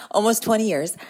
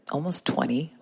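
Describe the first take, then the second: First: Higher and a bit louder, stunned by the number; amazed exclaim. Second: Said in the usual way. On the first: Real, not acted. To listeners realizing her years of motherhood, amazed exclaim. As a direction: say it like you can't believe it. Shocked at her own count.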